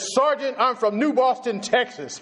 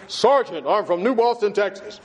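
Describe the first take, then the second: First: High and proud, chest out; a recruit puffing himself up; proud raised voice. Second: Puffed-up recruit, a hint of pride; the recruit in basic training, mildly puffed up; mock manly bass. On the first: Retold or imitated. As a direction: announce it like it means something. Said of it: "I raised my voice like it meant something". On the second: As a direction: throw your chest into it, lightly. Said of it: "I put up all that manhood and that bass I could throw in there".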